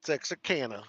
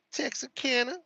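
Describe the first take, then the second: First: Said in the usual way. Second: Texarkana asked with a high rising end; questioning rise. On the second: Shown as a demonstration. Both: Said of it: "I would like to hear you say it".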